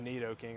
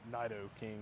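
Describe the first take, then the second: First: The first vowel sounds like 'ee'. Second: The first vowel sounds like 'eye'.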